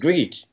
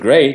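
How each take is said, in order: First: The vowel sounds like 'ee'. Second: The vowel sounds like 'ay'. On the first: The speaker calls it wrong. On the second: The speaker calls it right.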